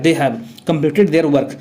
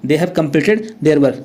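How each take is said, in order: First: "They have completed their work" read out slowly, word by word; slow classroom reading; slow dictation. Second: "They have completed their work" read slowly once more, stress on "completed"; slow classroom repetition; slow dictation. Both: Shown as a demonstration. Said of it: "हैव लगता है".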